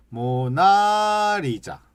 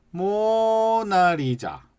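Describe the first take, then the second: First: 모나리자 slow, raised on a different syllable; different pitch. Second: 모나리자 with 모 long and high. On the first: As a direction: lift another syllable of 모나리자. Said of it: "또 어떤 사람들은". (모나리자를 다른 음절에 높게) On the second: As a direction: stretch and lift 모 in 모나리자. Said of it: "모자를 길게, 높게 해도 돼요". (모나리자의 모를 길고 높게) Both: Shown as a demonstration.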